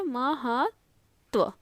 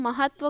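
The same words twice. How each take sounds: First: महत्व very slowly, "ma-haat... tva"; drawn-out, separated syllables in महत्व; sounded out. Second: Said in the usual way. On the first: Shown as a demonstration. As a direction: split महत्व with a long gap before the last part. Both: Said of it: "ऐसा".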